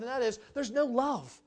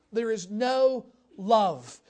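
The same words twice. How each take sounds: First: Said in the usual way. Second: "There is no love" said slowly and louder, each word weighted; slow it right down and lean on "There is no love"; slow emphatic repeat. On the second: Shown as a demonstration.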